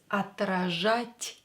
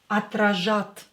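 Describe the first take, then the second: First: The final t sound is soft. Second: The final t sound is hard. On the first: The speaker calls it right. "you have to make this T softer because we have a soft sign after it" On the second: The speaker calls it wrong. "So it's not отражат"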